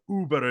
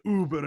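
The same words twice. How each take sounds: First: It is pronounced the English way, like ooh-ber. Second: It is pronounced the German way, like über. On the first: It names the ride service. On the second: It means great.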